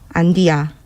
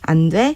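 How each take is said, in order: First: It is said slowly in a rough regional dialect. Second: It is said in plain standard Korean. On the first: "조금 느리고 투박한 사투리로" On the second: "표준어로 하면"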